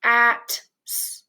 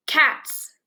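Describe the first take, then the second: First: "Cats" broken into c, at, s with gaps; sounded out. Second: Said in the usual way. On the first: Shown as a demonstration. Teacher helps learners read, "Cats" split into separate sounds. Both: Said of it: "let's read these words".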